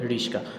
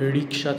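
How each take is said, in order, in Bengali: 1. s ধ্বনিটি k ধ্বনির আগে আসে। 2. k ধ্বনিটি s ধ্বনির আগে আসে। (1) "শয়ের জায়গায় ক আসছে, কয়ের জায়গায় শ গেছে" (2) "রিক্সা থেকে রিস্কা"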